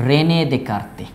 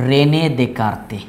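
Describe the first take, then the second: The two takes are said the same way.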